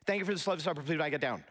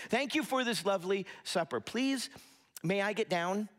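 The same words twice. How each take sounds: First: Rattled off in one rushed, toneless run; deadpan monotone. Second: Measured, courteous recital with a lifted "Please"; carefully polite, pausing before the request; polite child's recital. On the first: Youngest brother reciting to his parents at dinner, deadpan. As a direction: imitate a rote, meaningless recital without a pause. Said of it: "with a monotone look on his face, just kinda deadpan". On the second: Kids thanking their parents after dinner, politely recited. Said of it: "they would have their kids say". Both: Retold or imitated.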